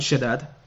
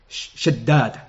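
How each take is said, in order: First: The d sound is short and single. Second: The d sound is held long and doubled. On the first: The speaker calls it wrong. "not Shaddad" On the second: The speaker calls it right. "with the dal mushaddada"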